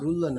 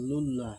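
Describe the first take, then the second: First: The syllable begins with an r sound. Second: The syllable begins with an l sound. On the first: The speaker calls it wrong. "রুল্লাহ না লুল্লাহ" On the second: The speaker calls it right. "না লুল্লাহ, লাম লাম"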